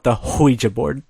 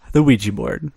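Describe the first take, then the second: First: "Ouija" said as "hwee-ja", with an added h; deliberate mispronunciation. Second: Said in the usual way. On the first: Shown as a demonstration. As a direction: put a breathy "hw" on the front of "Ouija". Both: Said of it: "Or as I like to call it".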